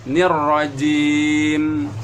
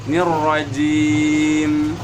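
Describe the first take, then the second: Both takes have the same delivery.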